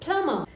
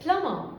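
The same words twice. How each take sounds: The two takes are said the same way.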